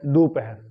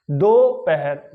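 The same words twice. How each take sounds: First: दोपहर joined up, starting "du"; दोपहर with short "u" replacing "o"; correct pronunciation. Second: दोपहर very slowly, "do" split off; दोपहर with a stretched "o" in "do"; mistaken pronunciation. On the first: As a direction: say दोपहर as "doo-pahar". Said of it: "जब उसको जोड़ेंगे". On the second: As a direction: say दोपहर as "doh... pahar". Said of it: "दोपहर नहीं". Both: Shown as a demonstration.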